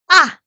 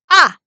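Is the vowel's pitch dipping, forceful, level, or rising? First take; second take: forceful; forceful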